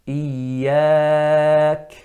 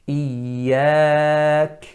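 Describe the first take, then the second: Both takes have the same delivery.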